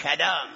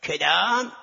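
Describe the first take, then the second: First: کدام with a falling, final tune; quarrel reply. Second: کدام with a rising question tune; quarrel quote. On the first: The other student firing back, falling کدام. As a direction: answer کدام flatly, dropping at the end. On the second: One seminary student quarreling with another, rising کدام. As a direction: ask کدام as a sharp rising challenge. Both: Retold or imitated.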